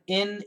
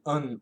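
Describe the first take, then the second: First: The ending is a nasal n sound. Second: The ending has an uh vowel before n. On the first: "up here in the nasal, I N" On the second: "we can say un"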